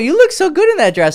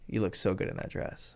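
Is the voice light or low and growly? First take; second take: light; low and growly. First: It is said lightly, without growl. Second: It is said low, with a growl.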